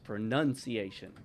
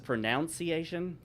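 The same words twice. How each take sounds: First: The second syllable sounds like 'nun'. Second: The second syllable sounds like 'noun'. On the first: The speaker calls it right. "They dispatch with the second O" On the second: The speaker calls it wrong. "Everyone says pronunciation. That's wrong"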